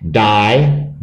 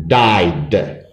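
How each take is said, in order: First: Said in the usual way. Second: Died ending in a voiced, released d. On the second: Shown as a demonstration. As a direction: add a clear d sound to die, making died. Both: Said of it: "so that D sounds like D".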